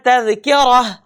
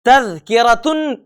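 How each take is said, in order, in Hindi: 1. शब्द h ध्वनि से खत्म होता है। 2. शब्द n ध्वनि से खत्म होता है।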